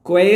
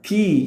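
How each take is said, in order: First: The word begins with a kw sound. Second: The word begins with a plain k sound. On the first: The speaker calls it wrong. "ക്വേ എന്ന് വായിക്കരുത്, തെറ്റാണ്" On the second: The speaker calls it right. "കീ എന്നാണ് ഉച്ചാരണം"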